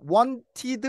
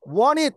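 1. 가운데 t는 발음하고, 음절을 따로 끊어 읽어요. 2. 가운데 t는 묵음이고, 음절을 이어서 읽어요. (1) "이렇게 하지 마시고요" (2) "이렇게 발음하시면 돼요"

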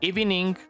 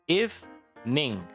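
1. La palabra se dice con tres sílabas. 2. La palabra se dice con dos sílabas. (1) "hay algo que debes trabajar ahí" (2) "Son dos sílabas"

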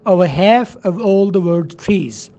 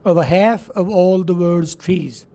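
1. यह अमेरिकन लहजे में बोला गया है। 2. यह अमेरिकन लहजे में बोला गया है।

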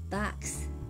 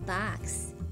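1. 母音は口を開けた'ah'の音です。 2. 母音は口を開けた'ah'の音です。

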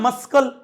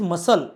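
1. l च्या आधी k आवाज ऐकू येतो. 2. l च्या आधी k आवाज ऐकू येत नाही. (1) "याला मस्कल नाही म्हणत ना आपण" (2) "दॅट इज मसल"

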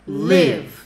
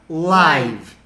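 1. A vogal soa como 'ih', como em give. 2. A vogal soa como 'eye', como em five. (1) "Viver, morar, live" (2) "Ao vivo, live"

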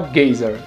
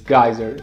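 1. A palavra é pronunciada como 'gazer'. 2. A palavra é pronunciada como 'geyser'. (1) "Mas ele fala gazer" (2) "A pronúncia certa dessa palavra aqui é geyser"

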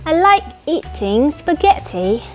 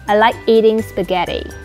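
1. Câu này được nói bằng giọng Anh. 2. Câu này được nói bằng giọng Mỹ. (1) "nếu nói giọng Anh là" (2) "Còn Anh Mỹ"

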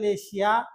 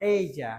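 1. প্রথম স্বরধ্বনিটি একটি ছোট 'eh'। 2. প্রথম স্বরধ্বনিটি একটি গড়ানো 'ay'। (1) "চারটি ভুল হয়েছে" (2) "নেক্সট আমরা বললাম এশিয়া হলো এই যা"

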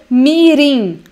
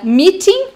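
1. É dita com sotaque americano. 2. É dita com sotaque britânico. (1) "meeting para americanos" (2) "Meeting para britânicos"

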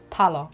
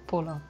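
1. Der erste Vokal ist ein offenes 'a'. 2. Der erste Vokal ist ein gerundetes 'u'. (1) "das heißt bestimmt Paller" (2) "nicht Puller"

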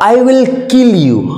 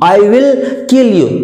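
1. I और will दो पूरे शब्दों की तरह बोले जाते हैं। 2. I और will दो पूरे शब्दों की तरह बोले जाते हैं।

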